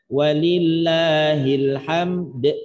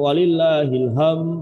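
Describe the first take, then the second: First: The final d is released with a bounce. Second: The final d sound is left out. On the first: The speaker calls it right. "juga kolkolahkan" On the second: The speaker calls it wrong. "Nah ini bermasalah ini"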